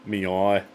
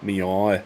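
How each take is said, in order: First: Belfast cat meow again. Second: Belfast cat meow. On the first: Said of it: "Give us another one". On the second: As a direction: meow like a Northern Irish cat. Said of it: "my impression of a cat from Belfast". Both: Retold or imitated.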